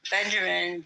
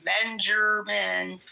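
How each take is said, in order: First: Said in the usual way. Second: Drawn-out call. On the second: Real, not acted. Host calls a silent Benjamin, dragging the name out slowly. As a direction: stretch the name out slowly, calling.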